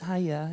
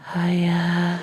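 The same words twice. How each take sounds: First: It is said in a cute, cheerful voice. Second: It is said in a creepy, eerie voice.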